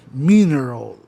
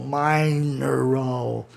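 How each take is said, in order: First: "mineral" with a short I, "MI-neral"; correct pronunciation. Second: "mineral" said slowly as "MAI-neral", long I like in "mine"; wrong pronunciation. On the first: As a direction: say "mineral" crisply, I as in "miss". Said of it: "soa melhor do que mineral". ("mineral" com I curto, do jeito certo) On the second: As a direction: drag out "mineral" with a long AI sound. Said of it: "não fica bem você pronunciar mineral". ("mineral" lento, com I pronunciado AI, do jeito errado) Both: Shown as a demonstration.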